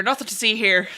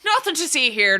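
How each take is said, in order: First: Said in the usual way. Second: Put-on old-time Irish cop. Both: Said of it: "an Irish cop impression".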